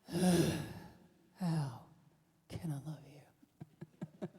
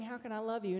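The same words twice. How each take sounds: First: It is asked in a critical, exasperated tone. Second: It is asked in a warm, sincere tone. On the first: The speaker is finding fault with the other person. The speaker calls it wrong. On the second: The speaker genuinely wants to show love. The speaker calls it right. "instead start saying"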